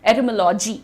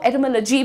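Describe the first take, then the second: First: The ending is an Indian-accent 'lawjee'. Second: The ending is a short 'luhjee'.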